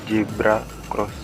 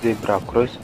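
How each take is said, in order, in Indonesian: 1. Kata pertama diawali dengan bunyi j. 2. Kata pertama diawali dengan bunyi z. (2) "ketika bilang"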